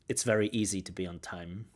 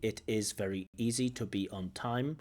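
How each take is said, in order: First: Natural rhythm with a contracted, unstressed opening. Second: Each word gets even, mechanical stress. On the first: The speaker calls it right. "at least" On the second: The speaker calls it wrong. "these are coming out very mechanically"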